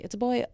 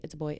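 First: Put-on higher, louder "It's a boy"; dramatic reveal. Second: Said in the usual way. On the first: Shown as a demonstration. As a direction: announce it like scandalous news.

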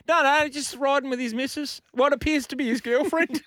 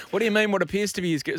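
First: Very high put-on caller voice; squeaky mock informant explaining; tattletale caller. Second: Higher, querying mock operator; puzzled operator. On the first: Caller reporting a scooter rider to triple O, put-on tattletale voice. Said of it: "you imagine the phone call". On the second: Triple O operator questioning a caller, mock puzzlement. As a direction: query the caller's odd wording, then break off. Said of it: "Triple O".

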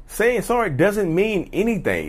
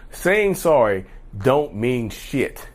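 First: Slower, a touch higher, weighing sorry; earnest restatement; serious emphasis. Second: Slowed down, each word landed; slow blunt emphasis. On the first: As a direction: say it slowly and seriously, leaning on sorry. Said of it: "Being serious". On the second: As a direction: lay it down flat and blunt, slowly. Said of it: "let me be real with y'all". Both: Real, not acted.

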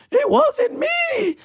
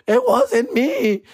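First: Squealing mock shout. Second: Mock pleading denial. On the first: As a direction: shriek the denial in panic. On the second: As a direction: deny it like a caught kid. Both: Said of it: "I'm doing the old".

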